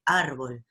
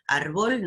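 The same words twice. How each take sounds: First: Árbol said slowly as ÁR-bol; correct first-syllable stress. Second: Árbol said as ar-BOL; invented final stress. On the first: Teacher giving the real word, first-syllable stress on árbol. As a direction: lean on the opening of árbol. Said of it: "existe árbol". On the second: Teacher rejecting the invented word, final stress on Árbol. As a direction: stress the last syllable of Árbol. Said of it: "Árbol no existe". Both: Shown as a demonstration.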